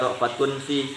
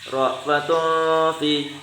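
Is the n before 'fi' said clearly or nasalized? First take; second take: clear; nasalized. First: The n is pronounced clearly without nasal hum. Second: The n is hidden with a nasal hum. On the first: The speaker calls it wrong. "jangan dibaca" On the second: The speaker calls it right. "itu namanya ikhfa, ya, ikhfa hakiki"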